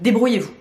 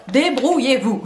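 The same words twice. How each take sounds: First: Said in the usual way. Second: "Débrouillez-vous" broken into punched syllables; emphatic débrouillez-vous. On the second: Retold or imitated. Vlogger voices shop brushing off customers, emphatic "Débrouillez-vous". Repeats it emphatically as site's message.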